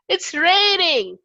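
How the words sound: It sounds happy.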